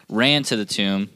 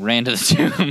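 First: Said in the usual way. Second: Laughing. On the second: Shown as a demonstration. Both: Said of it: "Just kidding".

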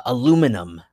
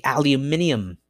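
First: "aluminum" the American way, a-LOO-mi-num; four-syllable American "aluminum"; American pronunciation. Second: "aluminium" the British way, al-yoo-MIN-ee-um; five-syllable British "aluminium"; British pronunciation. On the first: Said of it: "Americans say". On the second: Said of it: "British English people to say". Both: Shown as a demonstration.

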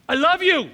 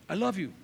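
First: Sudden loud, high I love you; loud declaration. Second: Said in the usual way. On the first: Shown as a demonstration. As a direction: burst out with the last I love you. Love letter read, repeated.

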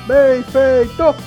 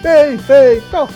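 Both takes have the same delivery.

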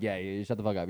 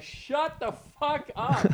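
First: Softer, lower, offhand "shut the fuck up"; calm quiet shut-down. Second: Much higher, slow, drawn-out "Shut the fuck up" with "fuck" stretched; mock the furious host losing it; pissed-off yell. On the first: Shown as a demonstration. Comic showing how he'd quiet a chatty crowd, low and soft. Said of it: "just get quiet and let them realize". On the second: Retelling an angry host snapping at the crowd, high mock rage. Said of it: "he was so pissed".

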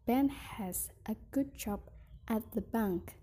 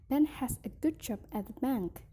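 First: "Ben has a good job", a pause, then "at the bank"; phrased in chunks. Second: "Ben has a good job at the bank." in one breath; smooth single phrase. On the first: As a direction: break before "at the bank". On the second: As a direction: say it as one flowing line. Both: Shown as a demonstration. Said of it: "phrasing and intonation".

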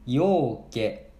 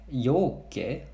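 First: ようけ drawn out slowly, every mora clear; slow demo word. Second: Said in the usual way. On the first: Shown as a demonstration. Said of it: "これもたくさんの意味やな". (ようけ をゆっくり発音) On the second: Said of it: "It means many and much".

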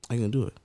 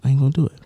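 First: Muttered under breath, much softer; softer repeat. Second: Said in the usual way. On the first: Shown as a demonstration. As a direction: say it again to yourself, quieter. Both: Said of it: "but I'm like".

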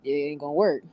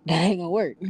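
First: Said in the usual way. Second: Laughing it out, a bit louder. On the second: Real, not acted. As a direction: repeat it through a laugh.

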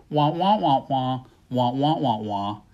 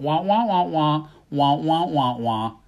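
First: Mock Peanuts teacher drone; muffled wah wah talk. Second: Trombone-like wah wah teacher voice; muffled wah wah talk. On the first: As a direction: imitate the muffled cartoon teacher. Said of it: "all the listeners are hearing is". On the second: Retold or imitated. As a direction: mimic the Peanuts teacher's muffled drone. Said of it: "the teacher going".

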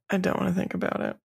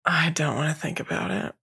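First: Quick, softer repeat; said fast again to dodge the thought; faster repeat. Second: Said in the usual way. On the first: Real, not acted. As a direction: rush it out squeamishly.

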